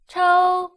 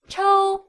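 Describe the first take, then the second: First: The pitch stays high and level. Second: The same.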